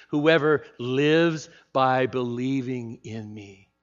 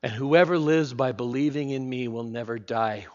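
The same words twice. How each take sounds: First: Slow, spaced words for the congregation to echo; slow call-and-response. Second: Said in the usual way. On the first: Shown as a demonstration. Preacher leading the congregation to repeat together, slowly. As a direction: lead the room through it slowly. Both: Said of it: "Say it with me".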